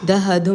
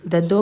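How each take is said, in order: First: It is said with an added h sound. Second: It is said without any h sound. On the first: "दहदो में आ गया" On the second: "ददो में कोई sound नहीं आया हे का"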